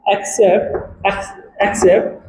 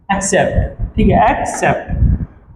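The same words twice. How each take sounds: First: एक्सेप्ट stretched slow and soft, first syllable split off then whole; slow model pronunciation. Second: एक्सेप्ट said slowly and carefully, stress on the second syllable; clear model pronunciation. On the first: Teacher showing students how to say एक्सेप्ट slowly. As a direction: break एक्सेप्ट into parts, then join. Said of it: "उसको हम क्या बोलते हैं". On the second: Teacher to students, modelling एक्सेप्ट slowly and clearly. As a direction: drill एक्सेप्ट slowly so students can repeat. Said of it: "इसको pronounce किया जाएगा बेटा एक्सेप्ट". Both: Shown as a demonstration.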